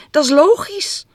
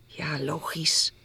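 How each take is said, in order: First: High, loud jubilant agreement; delighted squeal of agreement; joyful cry. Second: Soft, slow, nearly whispered; hushed, hesitant reply; subdued agreement. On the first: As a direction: exclaim it, thrilled. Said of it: "een verheugd stompje". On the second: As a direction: agree quietly, a little unsure. Girl left waiting, slightly worried. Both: A narrator's reading.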